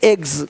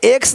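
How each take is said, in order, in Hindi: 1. शब्द का अंत z ध्वनि से होता है। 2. शब्द का अंत s ध्वनि से होता है।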